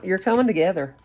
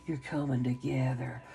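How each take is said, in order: First: Said in the usual way. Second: Much softer, hushed repeat of "You're coming together"; gentle murmured affirmation; soft echo. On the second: Real, not acted. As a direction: let the words fall to a near-hush.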